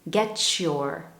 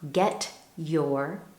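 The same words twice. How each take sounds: First: The t and y blend into 'ch'. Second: The t and y sounds stay separate.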